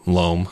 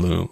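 First: LOAM with an oh vowel, like home; corrected to loam. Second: LOOM with an oo vowel, like room; mispronounced loam. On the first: Pump-track builder corrects his slip about dirt, corrected vowel. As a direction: fix it to "loam", long oh. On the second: Pump-track builder slips while pricing screened dirt, mispronounced. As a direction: slip and say "loom", long oo. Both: Real, not acted. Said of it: "Oh, I said loom".

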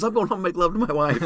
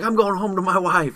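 First: High, loud yell with love emphasized; yelling quote. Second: High loud yell; yelling quote. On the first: Brian shouting he'll make love to wife, high yell. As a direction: roar the corrected vow. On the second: Brian shouting his will to survive, high loud yell. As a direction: bellow it like a vow. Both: Retold or imitated.

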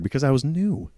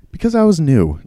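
First: Said in the usual way. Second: "Because I was new" repeated much higher and louder, hitting "was"; emphatic repeat. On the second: Real, not acted. Cashier insisting to viewers he was new, "was" stressed high. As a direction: stress "was" hard the second time, pitched up.

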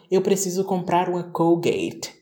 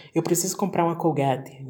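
First: "Colgate" said American, "col-gate"; forced English "Colgate" in a Portuguese sentence; mock-English "Colgate". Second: "Colgate" as "col-gah-tchee"; natural Brazilian "Colgate". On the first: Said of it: "por que que eu vou falar". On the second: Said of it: "eu posso simplesmente falar". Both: Shown as a demonstration.

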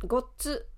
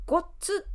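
First: Said in the usual way. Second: ごっつ jumped up high with a springy stop on the っ; bouncy Osaka gottsu. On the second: Shown as a demonstration. Teacher demonstrating the Osaka ごっつ to learners, bouncy. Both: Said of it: "弾むような言い方".

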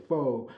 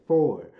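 First: "fo" with no R sound at the end; dropped final R. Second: "four" said with the R sounded at the end; pronounced final R. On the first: Quoting mama's correction on how to say four, "fo" without the R. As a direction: say "fo" with an open O, R dropped. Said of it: "mama said don't say fo". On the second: Showing the proper way mama wants, "four" with a clear final R. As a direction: hit the R that closes "four". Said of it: "I gotta say four". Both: Shown as a demonstration.

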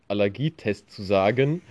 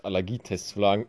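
First: Said in the usual way. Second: Real slip on "sagen", first sound coming out as an L; slip of the tongue. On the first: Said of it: "wie schwer es ist". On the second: Real, not acted. Admitting a small speech slip to listeners, tongue tripping on "sagen". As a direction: trip over "sagen" so it starts like "lagen". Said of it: "Kleiner Sprachfehler".

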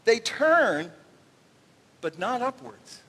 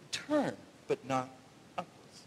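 First: Said in the usual way. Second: Low, dropping to almost nothing on upwards; hushed repeat. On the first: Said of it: "this one phrase". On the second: Shown as a demonstration. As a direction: savour the phrase softly. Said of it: "I love this phrase".

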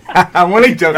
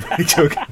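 First: Laughing it off, loud and bright; chuckling apology after a cheeky jibe. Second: Said in the usual way. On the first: Real, not acted. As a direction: laugh through the words I'm only joking. Laughs through teasing apology.

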